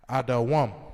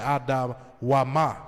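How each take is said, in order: First: The word ends on a consonant sound. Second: The word ends with an extra vowel sound. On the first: The speaker calls it right. "It's pronounced adawam" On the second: The speaker calls it wrong. "you're gonna sound silly"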